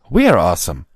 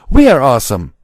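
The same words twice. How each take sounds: First: It is said with little force. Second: It is bellowed very loudly.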